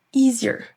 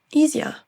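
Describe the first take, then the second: First: American accent. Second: British accent. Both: Shown as a demonstration. Drill alternates American and British.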